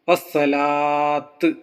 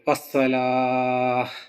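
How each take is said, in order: First: The word ends with a t sound. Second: The word ends with an h sound. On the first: The speaker calls it wrong. "വസ്സലാത്ത് എന്ന് സ്റ്റോപ്പ് ചെയ്യരുത്" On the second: The speaker calls it right. "താ എന്ന ശബ്ദത്തിന് പകരം ഹ എന്ന ശബ്ദം ആക്കി സ്റ്റോപ്പ് ചെയ്യണം"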